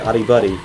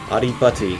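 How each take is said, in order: First: The second word has a D sound. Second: The second word has a T sound. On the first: "Sounds like Buddy" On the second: "but it's Butty"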